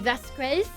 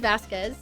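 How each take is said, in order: First: The name is said with a French accent. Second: The name is said without a French accent. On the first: "I'm thinking French, because that would be Vasquez" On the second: "I could say Vasquez. My bad"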